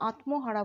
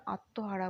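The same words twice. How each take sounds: First: আত্মহারা as "at-mo-hara", ম sounded; spelling pronunciation. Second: আত্মহারা as "at-to-hara", with double t; silent ম. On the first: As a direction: voice the m in আত্মহারা as written. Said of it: "আত্মহারা বলি না". (আত্মহারা, ম স্পষ্ট উচ্চারণ করে) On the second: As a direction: leave out the m sound in আত্মহারা. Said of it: "আত্মহারা বলি". (আত্মহারা, ম উহ্য রেখে "আত্তোহারা") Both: Shown as a demonstration.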